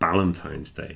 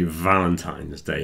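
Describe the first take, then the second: First: The first word begins with a B sound. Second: The first word begins with a V sound. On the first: The speaker calls it wrong. "Everyone pronounces the V as a B here" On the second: The speaker calls it right. "you add the vibration to the f and you get V"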